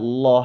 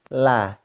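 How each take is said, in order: First: The L is heavy with a dark vowel. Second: The L is light with a bright a vowel. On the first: "Kalau lam yang tebal" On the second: "Lam fathah itu memang tipis"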